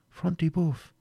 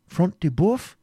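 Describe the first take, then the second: First: FRONT DE BOEUF as a softer, falling answer; confirming answer. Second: High, rising query; exclaimed question. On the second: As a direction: ask eagerly who has fallen. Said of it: "exclaimed Ivanhoe". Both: A narrator's reading.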